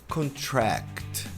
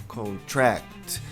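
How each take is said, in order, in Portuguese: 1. A tônica está na última sílaba. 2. A tônica está na última sílaba.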